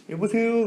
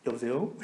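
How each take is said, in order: First: Higher, sharper hello; phone answer. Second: Quiet phone answer. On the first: Car owner picking up the phone, higher and curt. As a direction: snap the hello up high. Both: Retold or imitated. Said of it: "그러더라고요".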